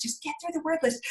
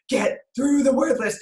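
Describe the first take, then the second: First: Higher, softer retold plea; soft pleading. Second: Drawn-out, emphatic retold plea; slow, strained insistence. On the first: Mother coaxing son through homework, soft pleading. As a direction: plead it softly, pitch raised. First take, softer aside. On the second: Mother pushing son through homework, slow insistence. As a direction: stretch out each word insistently.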